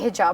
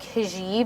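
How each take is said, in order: First: The word is said in a plain, unexaggerated way. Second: The word is said with exaggerated foreign-sounding pronunciation. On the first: The speaker calls it right. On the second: The speaker calls it wrong. "overly ethnic"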